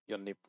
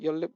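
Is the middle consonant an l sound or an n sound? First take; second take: n sound; l sound. First: The middle consonants sound like n. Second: The middle consonants sound like l. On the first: "So this one is obviously yonnip" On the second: "Or is it your lip?"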